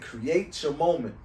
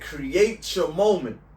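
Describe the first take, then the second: First: The phrase is said at normal volume. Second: The phrase is said noticeably louder.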